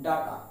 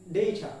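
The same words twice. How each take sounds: First: Data as "DAH-ta"; common mispronunciation. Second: Data as "DAY-ta"; long AY in the first syllable of data; correct pronunciation. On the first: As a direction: open A in the first syllable of data. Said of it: "not data". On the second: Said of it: "The pronunciation is data". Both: Shown as a demonstration.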